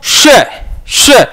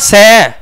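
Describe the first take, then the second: First: The hiss has a sh-like, chh-tinged quality. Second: The hiss is a plain s sound. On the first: The speaker calls it right. "यानी यहां छह की आवाज आनी चाहिए" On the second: The speaker calls it wrong. "इस तरह नहीं"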